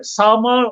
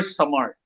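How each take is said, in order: First: "Summer" with the first syllable stressed; pronunciation option. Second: "Summer" with the final syllable stressed; alternative pronunciation. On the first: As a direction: lean on the opening syllable of "Summer". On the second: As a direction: lean on the last syllable of "Summer". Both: Shown as a demonstration. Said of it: "how do people pronounce".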